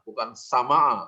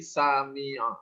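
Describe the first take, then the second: First: The vowel after the m is 'a'. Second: The vowel after the m is 'i'. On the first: The speaker calls it wrong. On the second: The speaker calls it right. "tapi sami'a"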